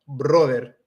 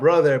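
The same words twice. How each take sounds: First: It is said with a Spanish-speaker accent. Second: It is said with a plain English accent.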